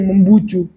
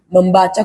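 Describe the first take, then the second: First: The last two syllables have a 'u' vowel. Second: The last two syllables have an 'a' vowel. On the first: The speaker calls it wrong. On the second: The speaker calls it right.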